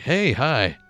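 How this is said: It is said in a theatrical, put-on voice.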